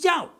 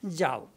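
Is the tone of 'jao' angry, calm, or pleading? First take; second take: pleading; calm. First: The word is said in a pleading, affectionate way. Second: The word is said calmly and gently. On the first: The speaker is asking the other not to go. "lover is pushing, Jao means don't go" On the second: The speaker gives permission to go. "Jao means I'm giving you permission"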